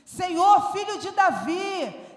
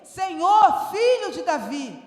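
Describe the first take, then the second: First: Louder first call for the master; crying out. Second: The louder peak, then dropping off; crying out again. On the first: The woman shouting to Jesus for his attention, loud. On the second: The woman calling Jesus a second time, louder at first. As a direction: push the second call harder, then let it fall. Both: Acted. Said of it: "ela começou a gritar".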